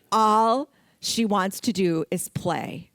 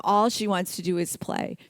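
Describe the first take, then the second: First: Chuckling through the line; laughing. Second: Said in the usual way. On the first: Real, not acted. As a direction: laugh as you say it. Laughing about the playful dog.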